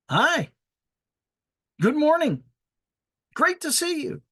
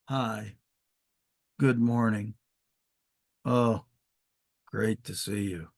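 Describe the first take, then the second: First: The greeting sounds warm, lively and cheerful. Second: The greeting sounds flat, dull and grumpy. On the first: The speaker is glad to see the person. The speaker calls it right. "This is a friendly greeting" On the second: The speaker is not glad to see the person. The speaker calls it wrong. "notice they weren't"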